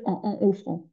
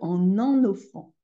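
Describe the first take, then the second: First: The words are said separately, without a linking n. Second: The n sound links into the next word. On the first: The speaker calls it wrong. "On ne va pas dire en en offrant, ça ne marche pas du tout" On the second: The speaker calls it right. "On va dire en en offrant"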